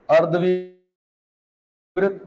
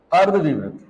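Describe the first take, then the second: First: अर्धविवृत drawn out very slowly for writing; slow dictation. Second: Said in the usual way. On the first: Shown as a demonstration. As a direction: stretch each syllable of अर्धविवृत. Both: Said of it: "लिखो".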